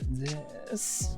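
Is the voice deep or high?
deep. The voice is low and deep. "all the way down to this"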